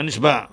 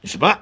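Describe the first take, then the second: First: نشبع without the rising punch at the end; نشبع with a softened final ayin; rejected pronunciation. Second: نشبع rising sharply onto a stopped ending; sounded final ayin. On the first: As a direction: let the ending of نشبع fall away. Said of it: "نه". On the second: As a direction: punch the final guttural of نشبع. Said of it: "اسارت رفت". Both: Shown as a demonstration.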